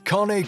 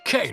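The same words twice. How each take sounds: First: The word is said as two syllables. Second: The word is said as one syllable. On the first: The speaker calls it right. "the real pronunciation is cane corso" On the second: The speaker calls it wrong. "You've probably been pronouncing its name wrong"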